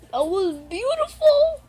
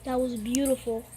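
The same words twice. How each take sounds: First: Louder, higher, stretched out beautiful; overwhelmed gush. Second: Said in the usual way. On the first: Real, not acted. Reactor to poem video, overwhelmed gushing praise.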